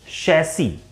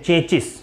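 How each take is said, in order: First: It starts with sh and ends in -ee. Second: It starts with ch and ends in -is. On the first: The speaker calls it right. "It's correct pronunciation is शैसी" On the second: The speaker calls it wrong. "लोग बोलते हैं चेचिस"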